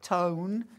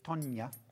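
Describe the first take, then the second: First: The name is said as one syllable. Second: The name is said as two syllables. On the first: The speaker calls it wrong. "Spent years calling her Tone" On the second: The speaker calls it right. "But it's Tonya"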